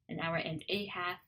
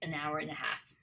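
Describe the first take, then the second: First: The small words keep their full vowels. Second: "And" and "a" shrink to schwa weak forms.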